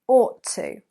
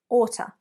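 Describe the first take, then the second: First: It is said as two separate full words. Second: It is squeezed into one reduced word. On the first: It sounds a little more formal. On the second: It suits informal spoken English.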